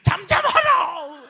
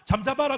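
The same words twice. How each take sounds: First: It is said in an irritated, annoyed tone. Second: It is said calmly and mildly.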